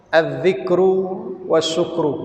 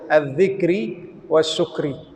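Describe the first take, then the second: First: The words end in a u vowel. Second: The words end in an i vowel.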